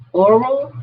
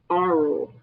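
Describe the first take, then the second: First: "oral" starting with a clear "aw" sound, pitch rising. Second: "oral" said as "AH-rul", opening on "ah"; aural with an A. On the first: Teacher naming the mouth route, oral with an O. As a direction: open "oral" on a rounded O, lifted and questioning. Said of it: "oral with an O". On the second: Teacher naming the ear route, said with an "ah". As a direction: start "oral" with an open "ah", pitch falling. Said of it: "oral with an A". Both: Shown as a demonstration.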